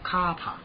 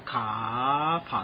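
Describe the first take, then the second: First: The pitch jumps straight up high at once. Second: The pitch climbs slowly and gradually upward. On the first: The speaker calls it right. "一开始就要跳到天花板上去" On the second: The speaker calls it wrong. "所以它不能读卡帕，那是电瓶车啊"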